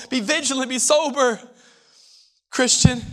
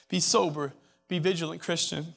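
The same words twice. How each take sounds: First: Said in the usual way. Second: Dropped to a soft, intimate plea; hushed repeat. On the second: Real, not acted. Preacher repeating his warning to the students, now hushed. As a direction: pull the room in close and say it softly.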